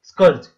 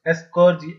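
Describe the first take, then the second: First: The word starts directly with the s sound. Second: The word starts with an extra e sound. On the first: "होता तो ये स्कर्ज है" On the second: "आप Hindi medium वाले इसको एस्कर्ज पढ़ेंगे"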